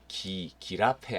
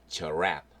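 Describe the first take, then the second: First: The word starts with a hard g sound. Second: The word starts with a j sound. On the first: The speaker calls it wrong. "발음도 기라페 아닙니다" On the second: The speaker calls it right. "GI가 j 발음이 납니다"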